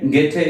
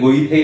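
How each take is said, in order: First: The name has an 'ay' vowel and a 't' sound. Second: The name has an 'oy' vowel and a 'th' sound. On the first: The speaker calls it right. "ഗേറ്റെ എന്നാണ് അദ്ദേഹത്തിന്റെ ശരിയായുള്ള ഉച്ചാരണം" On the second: The speaker calls it wrong. "സാധാരണയായിട്ട് ഗെയ്ഥെ അല്ലെങ്കിൽ ഗൊയ്ഥെ എന്നൊക്കെയാണ് നമ്മൾ എഴുതുന്നത്"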